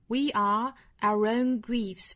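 There is a pause after "we are". "我们相当于把后面这三个词做一个意群"

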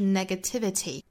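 Each t is a crisp, fully released stop. "英音的话是 negativity, 这里面的字母 T 都是爆破十足的"

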